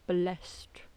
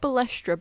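First: The name is pronounced with French sounds. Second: The name is pronounced as English spelling suggests. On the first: "if it's French, then it'll be like Balestre" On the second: "It's spelt Balestre"

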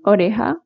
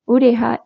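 First: The word begins with an o sound. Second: The word begins with a u sound. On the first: This is how it is said in standard Spanish. "instead of oreja" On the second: This is how it is said in Maghreb Spanish. "the O by the U"

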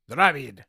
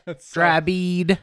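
First: It is said in a neutral accent. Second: It is said in a Southern US accent. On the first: "Without the southern accent" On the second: "go back to the southern accent"

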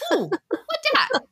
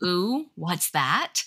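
First: It is said as 'what dat', with a 'd' sound. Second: It is said as 'what's that', with a 'th' sound. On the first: A toddler is speaking. The speaker calls it wrong. "she would point and go, "Ooh, what dat?"" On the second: An adult is speaking. The speaker calls it right.

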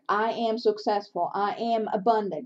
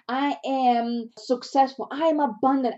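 First: It is read flatly, without feeling. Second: It is said with lively excitement.

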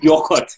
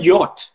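First: The middle letters are sounded out, two syllables. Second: The middle letters are silent, one short syllable.

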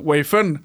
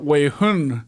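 First: The second syllable begins with an f sound. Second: The second syllable begins with an h sound. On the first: "oh, so you mean like a derivative" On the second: "they will sometimes have a Taiwanese pronunciation for some Mandarin stuff"

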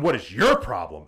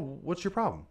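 First: It sounds confrontational and accusing. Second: It sounds like a mild, genuine question. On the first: The retelling makes the speaker seem aggressive. The speaker calls it wrong. "they didn't say it like that" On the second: The speaker was sincerely asking what was wrong. The speaker calls it right. "They asked like"

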